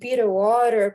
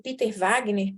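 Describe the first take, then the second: First: The name is said in an English way. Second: The name is said in a Brazilian Portuguese way. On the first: "a pronúncia correta é essa última, que é muito feia" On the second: "eu chamo ele de Wagner"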